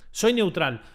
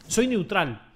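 Both takes have the same delivery.

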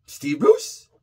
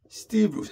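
First: "Steve Bruce" as a question, rising on Bruce. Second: "Steve Bruce" starting high on Steve, falling away; statement. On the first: Host queries the rumoured manager choice, questioning rise on "Bruce". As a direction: lift "Bruce" into a doubtful question. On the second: Host repeats the rumoured name, falling statement on "Steve Bruce". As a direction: drop "Bruce" as a settled statement. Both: Real, not acted.

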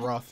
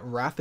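First: "Roth" with a rounded British aw vowel; British pronunciation. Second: "Wrath" with the short a of cat; American pronunciation. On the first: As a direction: say "Roth" the UK English way, rhyming with cloth. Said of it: "Wrath is pronounced Roth in English". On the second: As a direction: say "Wrath" to rhyme with math. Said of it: "Wrath is pronounced Roth". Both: Shown as a demonstration.

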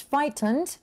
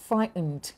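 First: "frightened" with the middle T pronounced; T sounded. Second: "frightened" with the middle T silent; T dropped. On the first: Teacher asks Darius to choose, middle T sounded in "frightened". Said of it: "ที่มีตัว T". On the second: Teacher offers Darius the other option, middle T dropped in "frightened". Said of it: "ไม่มีตัว T". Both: Shown as a demonstration.

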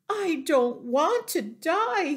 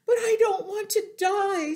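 First: High, loud wailing lament; tearful moan. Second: Very high, loud crying protest; wailing scream. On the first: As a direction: moan it as a piglet in tears. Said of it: "he moaned". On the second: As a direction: scream through tears as a piglet. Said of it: "screamed Wilbur". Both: A narrator's reading.

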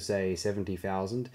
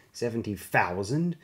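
First: Said in the usual way. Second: Slow, stunned rising echo; aghast. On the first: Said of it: "Card assured him". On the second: A narrator's reading. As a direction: repeat the number in disbelief. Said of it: "Failure echoed, aghast".

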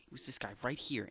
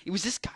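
First: Quick conspiratorial whisper. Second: Raised, emphatic call-out; louder and higher, stressing "this"; pointing out loudly. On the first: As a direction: hush it fast, like a secret. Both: Shown as a demonstration.

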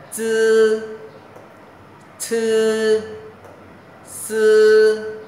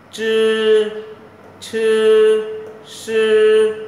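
First: "Chư", "Sư" as hissed ts and s, long and high; uncurled tongue. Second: "Chư", "Sư" hushed with curled tongue, loud, high and long. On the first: Teacher reviews earlier three letters, "Chư", "Sư" without curling. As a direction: keep the tongue flat for "Chư" and "Sư", held high. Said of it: "giống ba chữ trên này". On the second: Teacher contrasts the three letters, "Chư", "Sư" tongue-curled. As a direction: curl the tongue back for "Chư" and "Sư", held high. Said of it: "ba chữ này là âm uốn lưỡi". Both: Shown as a demonstration.

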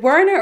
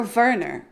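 First: "Werner" begun with an English w sound; English W pronunciation. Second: "Werner" begun with a v sound; German V pronunciation. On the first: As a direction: say "Werner" with a rounded w at the start. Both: Shown as a demonstration. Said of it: "Is it Werner or Werner?".

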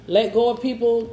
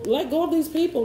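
First: Said in the usual way. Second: "these" pushed up high and hit hard; stress on these. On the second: Real, not acted. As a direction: lean on "these", the rest level. Repeats with weight on these.

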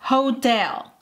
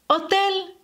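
First: "hotel." said the English way, h sounded, stress on tel; English pronunciation. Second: "Hotel," said the Spanish way, silent h, pitched higher; Spanish pronunciation. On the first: Teacher modelling the English word for Spanish learners, English sounds. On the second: Teacher contrasting the Spanish word for learners, Spanish sounds. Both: Shown as a demonstration. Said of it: "la pronunciación es diferente".

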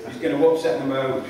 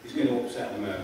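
First: UPSET THE MODE said firmly at full voice; firm, full-voiced "upset the mode"; emphatic repeat. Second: Low, soft and understated; low-key, almost to oneself; quiet understatement. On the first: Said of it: "declares emphatically". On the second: First, hushed take of a repeated line. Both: Real, not acted.

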